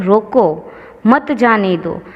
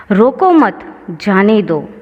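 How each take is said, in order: First: "रोको" alone, then "मत जाने दो" together; pause after रोको. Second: "रोको मत" together, pause, then "जाने दो"; pause after मत. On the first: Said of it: "के बाद अल्प विराम का चिन्ह लगा है". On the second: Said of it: "के बाद जो चिन्ह लगाया गया है". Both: Shown as a demonstration.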